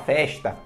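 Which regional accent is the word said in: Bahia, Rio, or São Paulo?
Rio. It is said with a Rio accent. "no Rio de Janeiro a galera fala festa"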